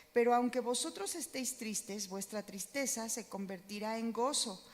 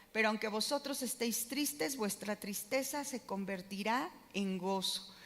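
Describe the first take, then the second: The two takes are said the same way.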